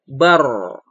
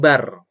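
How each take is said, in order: First: The r sound is heavy and thick. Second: The r sound is light and thin. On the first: The speaker calls it right. "tapi bar, tebal ya" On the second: The speaker calls it wrong. "bukan bar ya"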